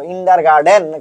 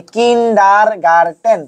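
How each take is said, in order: First: "কিন্ডারগার্টেন" mispronounced with d, as kindar-gar-DEN; "কিন্ডারগার্টেন" with "den" for "ten"; wrong "garden" ending. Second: "কিন্ডারগার্টেন" slowly in syllables, kin-dar-gar-TEN; slow, divided "কিন্ডারগার্টেন" ending in "ten"; hard TEN ending. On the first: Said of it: "গার্ডেন না রে ভাই". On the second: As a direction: spell out "কিন্ডারগার্টেন" by sound with a hard t. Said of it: "টেনটা important". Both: Shown as a demonstration.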